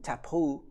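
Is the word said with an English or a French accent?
French. It is said with a French accent.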